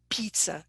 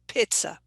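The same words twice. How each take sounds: First: The first vowel is a long 'ee' sound. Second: The first vowel is a short 'i' sound. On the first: "shouldn't be pizza" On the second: "should be pizza"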